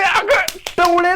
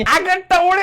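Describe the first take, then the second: First: Slow, stretched अगं टवळे with अगं drawn long; stretched-out अगं टवळे, high and slow; slow drawn-out insult. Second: Said in the usual way. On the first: Shown as a demonstration. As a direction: drag out अगं टवळे mockingly.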